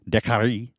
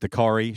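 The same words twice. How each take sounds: First: The name is said with French Canadian pronunciation. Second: The name is said with English-style pronunciation. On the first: "technically, because it's French Canadian, it's Dakari" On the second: "can I kind of just anglify that"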